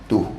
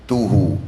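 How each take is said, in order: First: The word ends on a bare consonant. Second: The word ends with an added vowel sound. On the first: The reading stops at this word. "Kalau diwakafkan dia jadi tuh" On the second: The word runs on into what follows. "Kalau disambung dia jadi tuhu"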